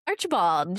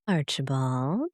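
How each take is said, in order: First: It is said plainly, without suggestion. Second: It is said in a knowing, suggestive tone.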